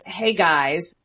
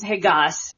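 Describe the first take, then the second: First: Said in the usual way. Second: "Hey, Gus", vowel held as ah without its glide; monophthong "guys". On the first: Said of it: "when he says". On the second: Shown as a demonstration. Linguist imitating a senator's Southern "Hey, Gus", glide dropped. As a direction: drop the end of the vowel in "Gus", like "gahs". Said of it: "takes off the last part of the vowel".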